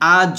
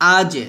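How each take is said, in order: First: The final consonant stops abruptly without an echo. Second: The final consonant is released with a light echo. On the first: The speaker calls it wrong. "আ জ হবে না" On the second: The speaker calls it right. "কিন্তু আজে এভাবে"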